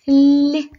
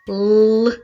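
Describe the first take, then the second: First: The L sound is soft and palatalized. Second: The L sound is hard, not palatalized. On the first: "звук лі ми вимовляємо м'яко" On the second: "звук Л ми вимовляємо твердо"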